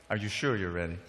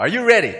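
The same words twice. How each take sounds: First: Low, soft teasing follow-up; hushed check. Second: Loud, high call to the crowd; rousing shout. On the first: Preacher double-checks the audience before the shock, hushed and low. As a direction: drop right down to build suspense. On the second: Preacher readies listeners for a shock, rousing loud call. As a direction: fire up the audience. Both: Real, not acted.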